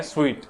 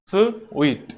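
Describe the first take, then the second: First: Said in the usual way. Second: "sweet" broken in two, 'स... वीट', with a clear gap; split into sounds. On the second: Shown as a demonstration. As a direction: say "sweet" sound by sound: 'स', pause, 'वीट'. ("Sweet" को दो sound में तोड़कर, 'स... वीट') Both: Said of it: "दो sound से मिलके बना है".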